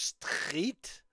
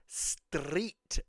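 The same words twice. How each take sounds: First: The R is said in a French way. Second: The R is rolled on the tongue. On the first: "like a French street" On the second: "street with the rolled R"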